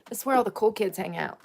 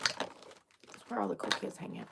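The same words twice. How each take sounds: First: Said in the usual way. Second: Very soft voiceless whisper; hushed, breath-only repeat. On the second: Pretend. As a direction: whisper it like a secret. Same line repeated in a whisper.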